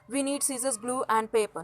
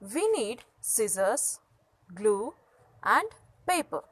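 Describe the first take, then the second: First: It runs on with no pause after scissors. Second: There is a short pause after scissors. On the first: The speaker calls it wrong. "we can't say" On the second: The speaker calls it right. "we need to pause one after the other"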